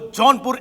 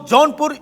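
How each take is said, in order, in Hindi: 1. पहला अक्षर 'john' जैसा सुनाई देता है। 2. पहला अक्षर 'jaun' जैसा सुनाई देता है। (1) "मैं जिस जौनपुर की बात कर रहा हूं वो जौनपुर एमपी में है" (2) "आप जिस जौनपुर की बात कर रहे हैं वो जौनपुर यूपी में है"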